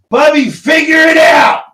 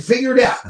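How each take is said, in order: First: Full shout across the house. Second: Calling it out loudly; raised voice. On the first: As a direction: yell it to the next room, much higher and louder. Shouting to Kate in other room. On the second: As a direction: repeat it loud to someone nearby. Echoing [name], calling to Kate. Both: Real, not acted.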